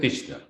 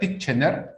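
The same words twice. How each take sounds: First: The name is said in its natural pronunciation. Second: The name is read out as it is spelled. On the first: "Pero lo pronuncias Titchener" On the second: "Se escribe Titchener"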